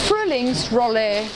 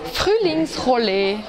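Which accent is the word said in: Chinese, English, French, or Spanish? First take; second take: English; French. First: It is said with an English-sounding R. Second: The R is made far back in the throat. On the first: "Englisch sprechende Schüler sagen es nochmal anders" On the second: "Französisch Sprechende sagen das R weiter hinten"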